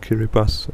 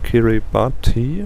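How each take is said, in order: First: The 'ti' near the end sounds like 's'. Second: The 'ti' near the end sounds like 't'. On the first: "you pronounce it Kiribati, so the T I becomes an S" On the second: "actually spelled Kiribati, like with a T I in the end"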